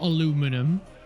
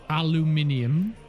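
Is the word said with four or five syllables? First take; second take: four; five. First: The word is said with four syllables. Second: The word is said with five syllables. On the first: The speaker calls it wrong. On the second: The speaker calls it right.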